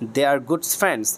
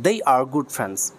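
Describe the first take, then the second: First: 'They' begins with a plain d sound. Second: 'They' begins with a soft th sound. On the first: The speaker calls it wrong. "আমরা সবাই উচ্চারণ করি দ একারে দে।" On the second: The speaker calls it right. "এটার উচ্চারণ দে না।"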